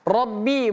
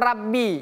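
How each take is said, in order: First: The first syllable has a heavy 'o' vowel. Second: The first syllable has a thin 'a' vowel. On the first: The speaker calls it right. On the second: The speaker calls it wrong. "bukan Rabbi"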